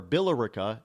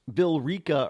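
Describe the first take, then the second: First: Billerica in four syllables, BILL-er-icka; full pronunciation. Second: Billerica as bill-REE-ka; alternate pronunciation. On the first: Host listing ways not to say it, Billerica as BILL-er-icka. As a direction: say Billerica with the E sounded. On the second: Host listing ways not to say it, Billerica as bill-REE-ka. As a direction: say Billerica in three syllables with a long ee. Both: Shown as a demonstration. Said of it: "It's not Billerica or Billerica".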